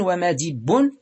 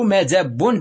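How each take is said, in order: First: ومدب as wa-madibbun, i on the dal; irregular kasra form. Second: مدب as madabbun, a on the dal; fatha form. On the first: Teacher giving the irregular noun, ومدب said wa-madibbun. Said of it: "شذوذا". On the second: Teacher giving the regular noun, مدب said madabbun. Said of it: "بالفتح قياسا". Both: Shown as a demonstration.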